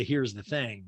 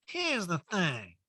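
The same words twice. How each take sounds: First: Said in the usual way. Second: High, slow catchphrase impression; Erica. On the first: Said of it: "We need a supercut of the". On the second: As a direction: stretch out a mimicked catchphrase, pitched up. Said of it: "She always does".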